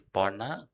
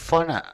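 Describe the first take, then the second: First: The name begins with a p sound. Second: The name begins with an f sound. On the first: "abdi mah orang Sunda jadi Pona" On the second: "Nganggo F"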